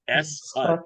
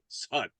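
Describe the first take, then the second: First: It is said as two separate syllables. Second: It is run together into one syllable. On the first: "taught it to you as" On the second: "When in speaking, you hear people speak, they'll say"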